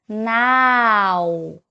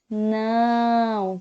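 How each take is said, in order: First: The vowel is open and oral, not nasal. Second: The vowel is nasal. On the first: The speaker calls it wrong. "com o som do A bem aberto" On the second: The speaker calls it right. "com o som do A nasal"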